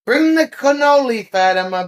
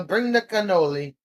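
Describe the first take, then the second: First: High, loud call. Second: Said in the usual way. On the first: Real, not acted. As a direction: call across the room to Fatima. Calling out to Fatima.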